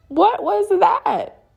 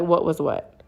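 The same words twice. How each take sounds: First: Very high, drawn-out acted question; incredulous. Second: Unfazed retold reply, in usual pitch; deadpan denial. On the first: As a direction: demand an explanation in exaggerated disbelief. Confronting partner about the sighting. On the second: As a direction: play it as if nothing happened. Partner feigns ignorance in reply.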